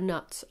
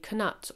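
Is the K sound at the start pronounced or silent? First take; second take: silent; pronounced. First: The word begins with an N sound. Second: The word begins with a sounded K. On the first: "meant to be a silent K" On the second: "I've always pronounced it knut myself"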